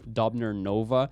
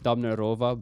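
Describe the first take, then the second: First: The name ends with an added 'nova' sound. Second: The name ends with a plain 'rova' sound. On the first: The speaker calls it wrong. "I've always read it as" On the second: The speaker calls it right. "It's Dobnerova"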